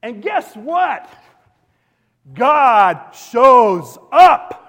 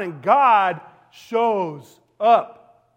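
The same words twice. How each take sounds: First: Very slow, much louder and higher, each word held; dramatic reveal. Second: Very slow, much louder, every word stretched; dramatic reveal. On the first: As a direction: build suspense then land it big. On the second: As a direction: drop it like a thunderclap. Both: Acted.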